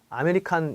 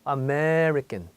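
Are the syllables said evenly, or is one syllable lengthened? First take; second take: even; lengthened. First: All syllables are said evenly, with no lengthening. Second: The stressed syllable is noticeably lengthened. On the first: The speaker calls it wrong. "아메리칸 이렇게 하죠" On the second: The speaker calls it right. "이 부분이 좀 길게 연장이 돼요"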